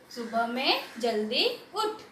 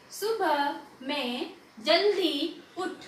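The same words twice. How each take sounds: First: The sentence read at an easier, quicker pace; quicker joined reading. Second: Very slow, word-by-word sentence reading. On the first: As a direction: read it through more connectedly. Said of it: "फिर उसे जल्दी से पढ़ना सीखो". (थोड़ा जल्दी, जोड़कर पढ़ना) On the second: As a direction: separate each word and hold its vowel. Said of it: "पहले धीरे धीरे पढ़ना सीखो". (धीरे-धीरे, शब्द अलग करके पढ़ना) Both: Shown as a demonstration.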